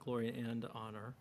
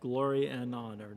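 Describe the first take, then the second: First: The word 'and' is said with a final D. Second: The word 'and' is said without a final D. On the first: The speaker calls it wrong. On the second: The speaker calls it right. "make sure there's no D on and"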